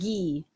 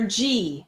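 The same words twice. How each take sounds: First: The name does not sound like the letter G. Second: The name sounds like the letter G. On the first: The speaker calls it wrong. "not G" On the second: The speaker calls it right. "like the letter G"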